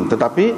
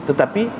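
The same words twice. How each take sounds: No difference in how they are said.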